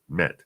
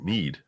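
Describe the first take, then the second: First: The vowel is a short 'e' sound. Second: The vowel is a long 'ee' sound. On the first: "telling her it's pronounced met" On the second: "she pronounced it mead"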